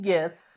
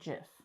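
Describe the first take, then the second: First: It begins with a hard G sound. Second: It begins with a soft J sound. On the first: It follows the word it comes from. "So the word that it comes from is a G sound" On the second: It follows how the creator says it. "the guy that created GIFs pronounces it GIF"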